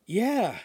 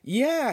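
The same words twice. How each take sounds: First: Excited yeah. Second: Excited yeah, higher. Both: Acted. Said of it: "he said excitedly".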